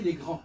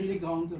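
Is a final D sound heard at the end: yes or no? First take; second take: no; yes. First: The word ends without any D sound. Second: The word ends with an audible D sound. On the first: The speaker calls it right. "On dit censé il est grand" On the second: The speaker calls it wrong. "on n'est pas censé dire il est grande"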